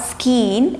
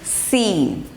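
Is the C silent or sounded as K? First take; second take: sounded; silent. First: A K sound follows the S. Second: The C is silent after the S. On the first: The speaker calls it wrong. "not skeen" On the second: The speaker calls it right. "It's simple scene"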